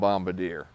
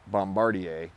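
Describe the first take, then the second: First: The name is said with an American pronunciation. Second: The name is said with a French pronunciation. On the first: "I call them Bombardier. That's what I'm going to always call it" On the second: "it's actually a French-Canadian company, and they pronounce it Bombardier"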